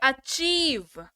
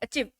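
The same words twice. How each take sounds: First: The long vowel is held and drawn out. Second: The vowel is said quickly without holding. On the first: The speaker calls it right. "इसको पढ़ेंगे achieve ... ठहराव है देखिए word में" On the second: The speaker calls it wrong. "Achieve ऐसे नहीं पढ़ेंगे"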